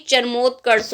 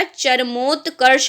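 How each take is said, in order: First: चरमोत्कर्ष ending in "kars" with a plain S; wrong S ending. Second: चरमोत्कर्ष drawn out slowly, ending in "karsh"; slow model of चरमोत्कर्ष with a clear final SH; correct SH ending. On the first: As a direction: swap the final SH of चरमोत्कर्ष for S. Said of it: "ना कि चरमोत्कर्ष होगा". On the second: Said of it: "चरमोत्कर्ष होगा". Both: Shown as a demonstration.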